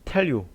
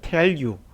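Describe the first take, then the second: First: It is said imitating a native English accent. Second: It is said plainly, word by word. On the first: "이렇게 하면 뭔가 그들의 발음을 그대로 따라하는 것 같은 느낌" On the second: "그냥 tell you예요"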